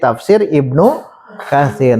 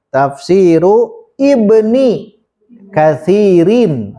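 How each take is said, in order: First: The words are clipped without the case endings. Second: Every word keeps its full Arabic case ending. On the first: "diringkas jadi" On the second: "tafsiru, jangan ditanwin"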